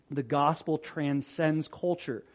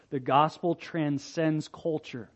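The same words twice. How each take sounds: The two takes are said the same way.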